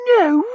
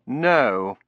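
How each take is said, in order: First: Very high, loud little shriek of "No?"; a scream in miniature; screamlet. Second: Said in the usual way. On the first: A narrator's reading. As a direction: squeal it in shocked disbelief. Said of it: "making it into a screamlet".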